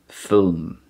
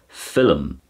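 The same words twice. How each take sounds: First: The word is said with one syllable. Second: The word is said with two syllables. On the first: The speaker calls it wrong. "strange to say it as a one syllable word like film" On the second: The speaker calls it right. "You can hear a double syllable there"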